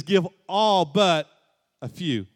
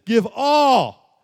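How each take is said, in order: First: A half-hearted take on the command that trails off; the wrong version, tossed off lightly; mock misquote. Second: Higher and louder, punching the word all; the correct version, full-force preaching; emphatic command. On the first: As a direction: say it like a reluctant bargain. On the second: Acted. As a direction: proclaim it as the full demand. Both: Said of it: "No, he says".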